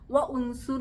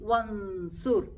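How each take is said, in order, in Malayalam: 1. വ'ക്ക് ശേഷം ഒരു അധിക 'u' സ്വരം ഉച്ചരിക്കുന്നു. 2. 'wa' നേരെ 'n'ലേക്ക് അധിക സ്വരമില്ലാതെ ചേരുന്നു. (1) "വ ഉൻസുർ എന്നൊന്നും ആരും പറയരുത്" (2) "വാവിൽ നിന്ന് നേരെ എങ്ങോട്ട് പോണം? നൂനിലോട്ട് പോണം"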